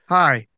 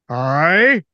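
First: It sounds timid and childlike. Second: It sounds puzzled and questioning.

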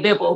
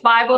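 First: It is not pronounced like the word Bible. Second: It is pronounced exactly like the word Bible. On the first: The speaker calls it wrong. "You'd be surprised how many people say Bible" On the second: The speaker calls it right. "but it's Bible, like the good book"

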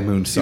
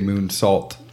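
First: The word ends without a T sound. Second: The word ends with a clear T sound. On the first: The speaker calls it wrong. "not a moonsault" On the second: The speaker calls it right. "it was a moonsault"

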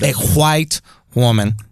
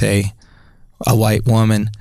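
First: White begins with a breathy hw sound. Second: White begins with a plain w sound. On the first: The speaker calls it right. "An H" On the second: The speaker calls it wrong. "you're not saying it correctly"

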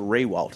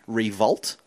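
First: The W in the name is sounded as W. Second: The W in the name is sounded as V. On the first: This is how commentators usually say the name. "Now it's back to Riewoldt, as I just did" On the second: This is how the family says the name. "it's actually pronounced Revolt, like the W is pronounced as a V"

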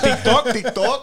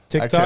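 First: It is said in a Spanish accent. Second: It is said in the speaker's plain accent.

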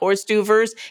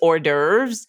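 First: It is said like the words Horst Duvers. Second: It is said without the Horst Duvers sounds. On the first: The speaker calls it wrong. "not have it sound like Horst Duvers" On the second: The speaker calls it right. "it's hors d'oeuvres"

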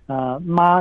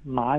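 First: The pitch stays high and level. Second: The pitch dips low and then rises. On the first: "ma is the first tone" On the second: "ma is the third tone"

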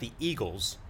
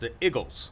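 First: The word has a standard general pronunciation. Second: The word has a local regional pronunciation. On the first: "it's not the Eagles" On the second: "if you're from the area, ... it's the Eagles"

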